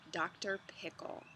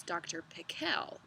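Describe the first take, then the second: First: Said in the usual way. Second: Pickle said pi-KLE, stress on the last syllable; Doctor Pickle with the weight on the end of Pickle; accent on second syllable. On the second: Shown as a demonstration. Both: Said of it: "with the accent on the second syllable".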